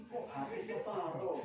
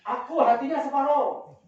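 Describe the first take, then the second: First: Soft, musing question; much softer than a shout, wondering; quiet puzzlement. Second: Louder, higher mock yell; acted-out shout from across the fence; retold shout. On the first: Retold or imitated. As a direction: repeat it to yourself, puzzled. Puzzles over the overheard shout. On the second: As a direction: call out like someone claiming a share. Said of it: "Terus ada yang teriak".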